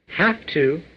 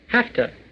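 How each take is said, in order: First: Each word is said fully and separately. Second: The words blend into one short reduced form.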